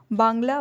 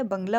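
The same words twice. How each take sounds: First: बांग्ला with a long आ; wrong form. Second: बंगला with a short अ; correct form. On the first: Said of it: "बांग्ला नहीं होता है". (बांग्ला गलत रूप) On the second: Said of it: "बंगला होता है". (बंगला सही रूप) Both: Shown as a demonstration.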